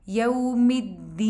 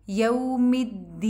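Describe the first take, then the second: The two takes are said the same way.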